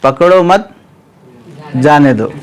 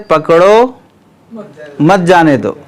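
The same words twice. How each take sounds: First: पकड़ो मत as one phrase, long break, then lower falling जाने दो; pause after मत. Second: पकड़ो lifted, long break, then मत जाने दो falling as one phrase; pause after पकड़ो. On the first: Teacher shows how vizier and doorman misread it, pause after मत. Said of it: "वज़ीर को, दरबान को जो उन्हें पढ़ा". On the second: Teacher voices the king's intended meaning, pause after पकड़ो. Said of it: "तो बादशाह की मुराद है". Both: Shown as a demonstration.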